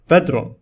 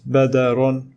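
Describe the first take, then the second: First: No vowel is heard after the d. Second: An a vowel is heard after the d. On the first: The speaker calls it right. "The following word is pronounced as bedron" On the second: The speaker calls it wrong. "It is not badarun with fatha"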